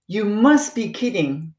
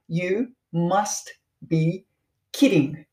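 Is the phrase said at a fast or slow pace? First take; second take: fast; slow. First: The phrase is said at natural, quicker speed. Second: The phrase is said slowly and deliberately.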